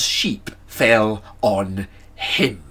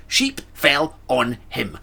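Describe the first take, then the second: First: Sheep fell on him, each word slow; slow deliberate reading. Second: Sheep fell on him, slow and flat; deadpan it in disbelief. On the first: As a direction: read it out slowly, word by word. Reading note slowly. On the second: Repeated in disbelief. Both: Shown as a demonstration.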